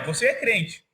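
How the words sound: It sounds like an affirming, confident question.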